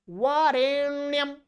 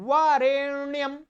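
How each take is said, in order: No difference in how they are said.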